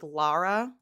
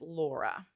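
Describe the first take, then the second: First: The first vowel is an open 'ah' sound. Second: The first vowel is a rounded 'aw' sound. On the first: The speaker calls it right. "Lara is the name, I think" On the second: The speaker calls it wrong. "Missus Gorski is pronouncing it Laura"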